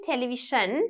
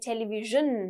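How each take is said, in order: First: It is said with a Sinhalese-style pronunciation. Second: It has a soft 'j'-like middle sound. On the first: The speaker calls it wrong. "You don't say television, that's in Sinhalese" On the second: The speaker calls it right. "We say television, j, j"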